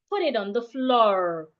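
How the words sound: Floor ends in an r-coloured vowel.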